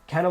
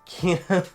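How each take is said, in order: First: The first vowel sounds like 'eh'. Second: The first vowel sounds like 'ee'. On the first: The speaker calls it wrong. "I was saying Kenna" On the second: The speaker calls it right. "or Kina"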